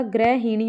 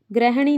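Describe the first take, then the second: First: ग्रहिणी said as gra-hi-ni with a clear i; correct ग्रहिणी. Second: ग्रहणी said as grah-ni, no i in the middle; wrong form ग्रहणी. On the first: Teacher giving the right word, ग्रहिणी with full i. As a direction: give ग्रहिणी its full middle i. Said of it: "ग्रहिणी होता है". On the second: Teacher showing the wrong word, ग्रहणी as grah-ni. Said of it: "ग्रहणी नहीं होता". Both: Shown as a demonstration.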